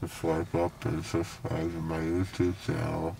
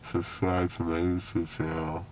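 First: Slurred numb mouth; talking with a numb mouth; numb from the dentist. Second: Slurred after anesthesia; words blurred by a numb mouth; numb from the dentist. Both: Real, not acted. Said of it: "everything in my mouth feels numb".

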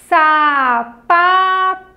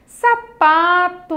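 First: SAPATO drawn out as sa... pa... to, loud and very slow; syllable by syllable. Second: Said in the usual way. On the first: Shown as a demonstration. Teacher shows children the three pieces of sapato, syllable by syllable. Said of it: "você vai falando a palavra". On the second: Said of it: "qual foi a palavrinha".

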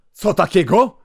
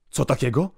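First: Higher, loud outraged cry; outraged shout. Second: Mild indignant call. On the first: Russian inspector to the priest, an outraged shout. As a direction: shout it in disbelief. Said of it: "krzyknął Rosjanin". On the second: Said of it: "głośniej zawołał inspektor". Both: Acted.

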